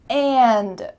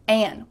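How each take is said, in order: First: The whole word is said with its final D. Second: The word is said without its final D.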